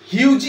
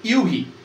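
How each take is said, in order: First: The name has a J sound in the middle. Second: The name has an H sound in the middle. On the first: The speaker calls it wrong. "হিউজি আমরা বলবো না" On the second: The speaker calls it right. "Actually উচ্চারণটা হবে ইউহি"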